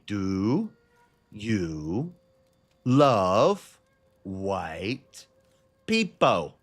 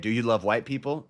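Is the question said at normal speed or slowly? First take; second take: slowly; normal. First: The question is said more slowly. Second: The question is said at a normal speed.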